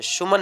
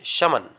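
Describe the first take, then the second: First: "सुमन" with a u vowel first; wrong pronunciation. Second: "समन" with short uh in the first syllable; correct pronunciation. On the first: Teacher warns against a misreading, mispronounced "सुमन" with su. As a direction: misread summon as "सुमन", su-man. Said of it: "सुमन नहीं पढ़ेंगे". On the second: Teacher gives the right reading, "समन" as sum-un. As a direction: say "समन" as sum-un, not su-man. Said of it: "आप इसे समन पढ़ेंगे". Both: Shown as a demonstration.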